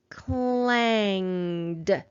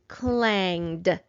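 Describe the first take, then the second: First: The word is said at a medium speed. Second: The word is said fast, in one go.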